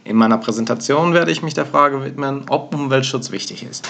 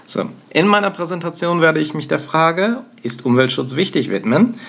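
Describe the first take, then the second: First: Said in the usual way. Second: "ist Umweltschutz wichtig" set apart with its own question rise, then "widmen" tacked on; awkward embedded question. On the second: Shown as a demonstration. Teacher shows the weird-sounding version of an exam sentence, with a question rise mid-sentence. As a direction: let the direct question break the sentence, then add "widmen" after. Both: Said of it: "the intonation is way different".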